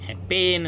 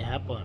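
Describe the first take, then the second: First: The second syllable has a clear 'e' vowel. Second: The second syllable has a weak, reduced vowel. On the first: The speaker calls it wrong. "हॅपेन नाही" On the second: The speaker calls it right.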